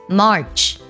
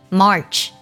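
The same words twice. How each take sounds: The two takes are said the same way.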